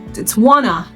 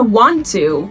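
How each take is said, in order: First: The two words are blended into one. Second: The two words are said fully and separately.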